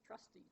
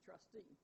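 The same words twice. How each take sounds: First: Trustee as TRUS-tee, like "trusty"; stress on first syllable. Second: Trustee as trus-TEE, second syllable stressed. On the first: Lecturer giving stress-pair examples, trustee stressed on first syllable. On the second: Lecturer giving stress-pair examples, trustee stressed on second syllable. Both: Shown as a demonstration. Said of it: "differ in stress".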